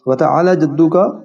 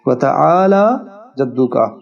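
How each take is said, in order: First: The vowel after the 'l' is cut short. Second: The vowel after the 'l' is drawn out long. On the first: The speaker calls it wrong. "गलत" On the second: The speaker calls it right. "हर्फ लाम को दो हरकत के बराबर खींचेंगे"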